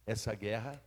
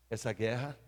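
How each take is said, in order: Both takes have the same delivery.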